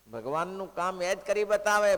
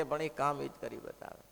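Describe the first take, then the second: First: Louder and higher repeat, leaning on બતાવે; emphatic repeat. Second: Said in the usual way. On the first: Shown as a demonstration. Preacher repeats the point to listeners, louder with બતાવે stressed. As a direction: drive it home, punching બતાવે.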